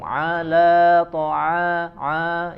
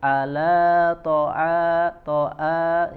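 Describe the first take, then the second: First: The ain is pushed through the nose. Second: The ain is cut off like a glottal stop. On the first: "ke khaisum ... ke hidung" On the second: "seperti hamzah"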